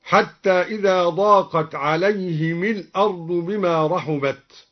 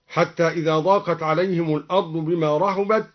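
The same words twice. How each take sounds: First: عليهم الأرض joined as "alayhimil-ard"; kasra on mim. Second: Said in the usual way. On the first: Shown as a demonstration. (عليهم الأرض بكسر الميم وصلا) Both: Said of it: "كسر الميم وصلا".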